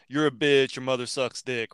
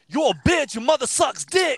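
First: It is said flatly, as if read. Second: It is said loudly and aggressively.

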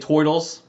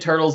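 First: It is said in Bebop Rocksteady's accent. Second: It is said in a plain accent.

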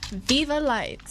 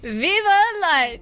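First: It is said flatly, with little energy. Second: It is said with more force and energy.

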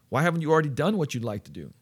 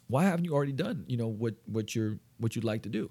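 First: The question is asked in an aggressive tone. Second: The question is asked in a friendly tone. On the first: The asker seems to be pushing or challenging. The speaker calls it wrong. "I might have even like been a little bit too aggressive there" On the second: The asker seems curious and supportive. The speaker calls it right. "now I notice my tone of voice changed there"

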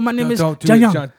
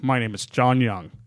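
First: It is said with an Asian-sounding pronunciation. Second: It is said with a plain English pronunciation. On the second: The name sounds like a generic Western name.

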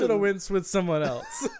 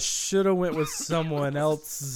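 First: The phrase is read at a faster pace. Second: The phrase is read at a slower pace.

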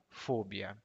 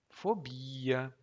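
First: The stress is on the first syllable, fo. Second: The stress is on the second syllable, bi. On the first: The speaker calls it wrong. "não fobia" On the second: The speaker calls it right. "preste atenção na pronúncia"

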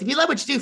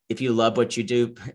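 First: It is said in an imitation of another man's voice. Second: It is said in the speaker's own normal voice.

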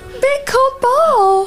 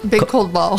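First: It is said in a put-on character voice. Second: It is said in an ordinary speaking voice.

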